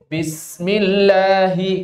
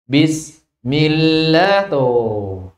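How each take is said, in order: First: "Bismillahi" drawn out slowly and joined smoothly; joined recitation. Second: "Bismillah" chanted very slowly with a break between sin and mim; broken recitation. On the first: Teacher showing students the correct joined reading. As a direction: recite "Bismillahi" slowly as one connected phrase. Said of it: "Seharusnya kan nyambung". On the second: Teacher imitating a wrong reading for students. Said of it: "Terkadang ada yang putus di sini". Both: Shown as a demonstration.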